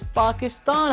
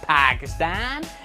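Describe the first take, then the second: First: The name is said with a Pakistani pronunciation. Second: The name is said with an American pronunciation. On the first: The speaker calls it right. "It's Pakistan" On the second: The speaker calls it wrong. "the way they say Pakistan is really upsetting me... It's not Pakistan"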